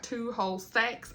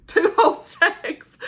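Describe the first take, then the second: First: Said in the usual way. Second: Loud, high, drawn-out laughing repeat; amused, slow and emphatic, pitched up; laughing emphasis. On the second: Real, not acted. Laughing repeat after correcting the count.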